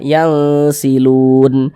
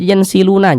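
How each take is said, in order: First: The word ends on a silent, vowelless n. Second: The word ends with an added a vowel. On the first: The speaker calls it right. "kita berhenti berwakaf di huruf nun kita baca yang silun" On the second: The speaker calls it wrong. "Jangan dibaca yang siluna"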